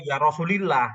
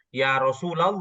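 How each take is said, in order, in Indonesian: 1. Vokal setelah Rasul adalah i. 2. Vokal setelah Rasul adalah a. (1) "itu malah jauh salahnya" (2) "bacanya ya Rasulullah"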